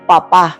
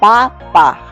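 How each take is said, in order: First: The stress is on the last syllable. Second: The stress is on the first syllable. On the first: It means parent. "la sílaba tónica en la última" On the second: It means a potato. "la sílaba tónica está en la primera pa"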